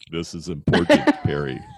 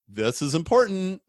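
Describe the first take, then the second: First: It is said in a put-on God voice. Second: It is said in his natural voice.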